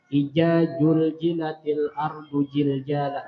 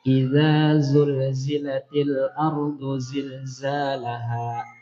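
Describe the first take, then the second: First: The letters are pronounced with j sounds. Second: The letters are pronounced with z sounds. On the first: "Dibacanya jim sabukuan" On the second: "Ada huruf zal, ada huruf zai"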